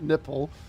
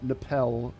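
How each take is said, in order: First: It is said like the English word 'nipple'. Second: It is said unlike the English word 'nipple'. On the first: The speaker calls it wrong. "Not nipple" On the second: The speaker calls it right. "I think that's how you pronounce that"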